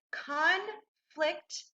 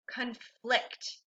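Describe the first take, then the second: First: "conflict" slowly split, with a gap between syllables. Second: Said in the usual way. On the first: Shown as a demonstration. Teacher models "conflict" for students, syllable by syllable. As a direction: say "conflict" in two parts, con, then flict. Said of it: "read this syllable by syllable". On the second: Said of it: "we'll blend it together".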